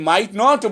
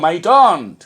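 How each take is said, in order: First: Both words are said fully and separately. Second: The words merge into one contracted word. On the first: The speaker calls it wrong. "কখনোই মাইট নট বলবো না" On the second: The speaker calls it right. "বলবো মাইটন্ট"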